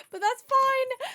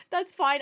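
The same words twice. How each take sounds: First: High, louder sing-song brush-off; breezy dismissal. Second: Said in the usual way. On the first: Real, not acted. Shrugging off the bad Spanish, a high breezy brush-off. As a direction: wave it away cheerfully.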